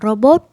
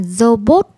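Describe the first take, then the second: First: The first sound is pronounced as an R. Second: The first sound is not pronounced as an R. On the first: The speaker calls it right. "mình vẫn phát âm chữ R là robot" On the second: The speaker calls it wrong. "Mình không nói là robot"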